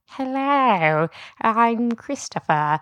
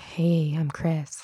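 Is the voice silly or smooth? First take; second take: silly; smooth. First: It is said in a silly, crazy voice. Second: It is said in a smooth, attractive voice.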